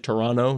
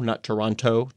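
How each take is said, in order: First: The name is said in the clipped local way. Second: The name is said with every syllable fully pronounced. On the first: The speaker calls it right. "notice how I said it properly" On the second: The speaker calls it wrong.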